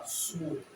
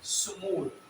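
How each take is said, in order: First: स्मूल said in one smooth syllable, falling at the end; model pronunciation. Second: स्मूल said again with a falling end; repeated model pronunciation. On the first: Teacher models स्मूल for students, said carefully and falling. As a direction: blend स्मूल together cleanly. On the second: Teacher repeats स्मूल to drill it, falling tune. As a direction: give स्मूल once more, slowly and clearly. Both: Shown as a demonstration. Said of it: "तो इसकी pronunciation है स्मूल".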